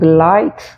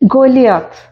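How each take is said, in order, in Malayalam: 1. മധ്യഭാഗം 'lie' പോലെയാണ് ഉച്ചരിക്കുന്നത്. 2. മധ്യഭാഗം 'lee-aa' പോലെയാണ് ഉച്ചരിക്കുന്നത്.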